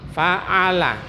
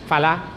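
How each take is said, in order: First: The word is said fully with its middle consonant. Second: The middle consonant is dropped from the word. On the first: The speaker calls it right. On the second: The speaker calls it wrong.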